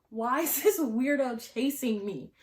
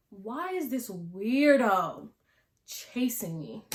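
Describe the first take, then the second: First: Higher-pitched, incredulous retold outcry; exclaimed disbelief. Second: Slow, stretched-out disbelief with a pause midway; drawn-out disbelief. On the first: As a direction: repeat it higher, in one exasperated run. Reacting to being chased, repeated take. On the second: Retold or imitated. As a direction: drag out the bewildered question, louder at first. Reacting to being chased, first take.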